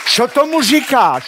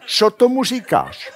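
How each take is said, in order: First: High, loud "Co tomu říkáš?" with laughter; mimicking wife, high and laughing; mock wife's question. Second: High laughing "Co tomu říkáš?", stress on "tomu"; quoting wife with a laugh; repeated wife's question. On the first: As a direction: squeak out the wife's final question. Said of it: "Ta důležitá poslední věta". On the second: Retold or imitated. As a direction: echo the wife's line high and amused. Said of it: "řekne".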